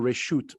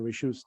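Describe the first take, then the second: First: The word ends with a t sound. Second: The word ends with an s sound.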